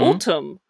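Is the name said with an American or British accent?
British. It is said with a British accent.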